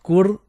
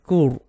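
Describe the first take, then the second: First: The r is pronounced light and thin. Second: The r is pronounced heavy and full. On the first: The speaker calls it wrong. "not kur" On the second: The speaker calls it right. "but kur"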